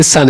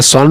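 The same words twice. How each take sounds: First: सन with a short open vowel, like "sun"; correct pronunciation. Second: सन drawn out as "sonn"; wrong pronunciation. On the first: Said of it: "सन इसको पढ़ना है". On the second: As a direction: say सन with a rounded "o", SAWN. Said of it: "सन नहीं पढ़ना है". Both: Shown as a demonstration.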